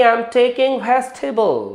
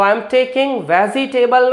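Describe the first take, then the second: First: I am taking vegetable with nukta ज़; correct pronunciation. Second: Vegetable with a plain j, vejitebal; I am taking vegetable the usual Indian way; wrong pronunciation. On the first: Teacher giving students the right vegetable. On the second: Teacher showing students the wrong vegetable. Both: Shown as a demonstration. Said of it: "नहीं".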